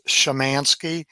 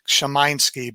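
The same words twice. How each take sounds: First: It is said with an Americanized pronunciation. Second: It is said the Polish way, A like 'eye'. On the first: "so it's Shamansky, and there's no particular emphasis on any of the syllables" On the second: "if you were in Poland, the A is a long I sound"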